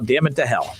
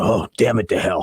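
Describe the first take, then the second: First: It is said in his normal voice. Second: It is said in a big, deep voice.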